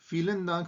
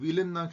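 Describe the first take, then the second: First: The first word begins with an f sound. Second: The first word begins with a v sound. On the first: The speaker calls it right. "फीलनदांक बोलते हैं" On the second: The speaker calls it wrong. "वीलनदांक नहीं बोलते"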